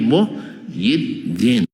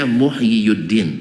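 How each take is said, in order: First: The name has three syllables without the 'yu' sound. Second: The name has four syllables with a 'yu' sound. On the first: This is the form actually used in speech. The speaker calls it right. "tapi Muhyiddin" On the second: This is the original underlying form. The speaker calls it wrong. "Tidak dibaca Muhyiyuddin"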